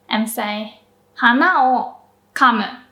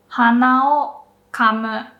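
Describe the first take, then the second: First: Flower meaning: up on na, down on o; pitch accent, chew flower. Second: Hana o kamu: ha low, na o high; nose meaning: low ha, high na o; pitch accent, blow nose. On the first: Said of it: "it means to chew a flower". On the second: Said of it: "ha is low and na o both high". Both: Shown as a demonstration.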